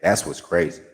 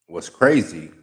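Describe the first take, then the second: First: "That's" punched at the start; pointed "That's" thrown back; stress on that's. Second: "crazy" leaned on and dropped; firm "crazy" turned back on them; stress on crazy. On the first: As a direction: hit "That's", then let "what's crazy" fall. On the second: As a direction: hit "crazy" firmly, falling. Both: Acted.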